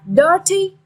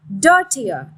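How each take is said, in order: First: DIRty, stress on the first syllable. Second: DIRtier, stress on the first syllable. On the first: Teacher modelling the stress of "dirty". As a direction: say "dirty" as DIR-ty with the weight up front. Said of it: "straight on the first syllable". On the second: Teacher modelling the stress of "Dirtier". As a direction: say "Dirtier" as DIR-ti-er with the weight up front. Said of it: "also straight on the first syllable". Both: Shown as a demonstration.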